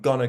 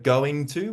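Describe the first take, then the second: First: The words are clipped into one short form. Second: Both words are said in full. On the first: "Deletion is when we clip sounds" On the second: "instead of going to"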